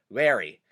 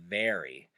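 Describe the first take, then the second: First: "very" begun with a W sound; thick accent V. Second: Said in the usual way. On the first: Shown as a demonstration. Showing the older generation's accent, "very" said with W for V. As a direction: swap the V of "very" for a W, like wery. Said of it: "someone with a really thick accent might say". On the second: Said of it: "and not".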